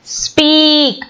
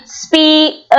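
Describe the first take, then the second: First: Said in the usual way. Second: "speak" broken as spee, k; attempted split. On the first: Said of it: "one syllable". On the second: Shown as a demonstration. Teacher testing if it splits, "speak" with its end broken off. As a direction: say "speak" with the final k detached. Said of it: "we cannot split".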